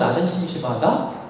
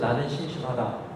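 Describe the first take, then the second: First: The voice rises at the end. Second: The voice falls at the end. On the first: It echoes the statement back as a question. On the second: It is a plain statement.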